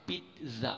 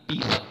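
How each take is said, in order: First: "पिज़्ज़ा" as pit, tiny gap, za; correct pronunciation. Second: "पिज़्ज़ा" as pee-za, no T; wrong pronunciation. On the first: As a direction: say "पिज़्ज़ा" split after the T. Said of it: "पिज़्ज़ा इसकी right pronunciation है". ("पिज़्ज़ा" को "पिट-ज़ा") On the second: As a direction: say "पिज़्ज़ा" loud with a plain Z. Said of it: "ना कि". ("पिज़्ज़ा", ज़ोर से "पीज़ा") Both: Shown as a demonstration.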